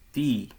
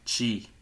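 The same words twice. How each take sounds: First: The syllable is said with a Northeast accent. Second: The syllable is said with a São Paulo accent. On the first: The speaker calls it right. "e sim ti, de tia, por exemplo, como o Nordeste" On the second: The speaker calls it wrong. "não é ti, né, como a gente costuma dizer no, em São Paulo"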